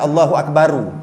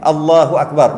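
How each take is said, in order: First: The final r is followed by a u vowel. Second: The final r is said with no vowel after it. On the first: The speaker calls it wrong. "jangan Allahu akbaru" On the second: The speaker calls it right. "ra tu jazam, mati"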